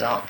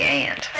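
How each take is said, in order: First: Broad AH in "aunt", as in "ahnt"; West Virginia pronunciation. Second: Said in the usual way. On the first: Retold or imitated. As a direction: say "aunt" with the open vowel of "father". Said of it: "some people says aunt from West Virginia". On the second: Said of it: "I always say aunt".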